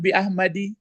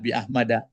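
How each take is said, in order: First: The name ends with an 'i' vowel. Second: The name ends with an 'a' vowel. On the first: The speaker calls it wrong. "jangan bi Ahmadi" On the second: The speaker calls it right. "Nah, bi Ahmada"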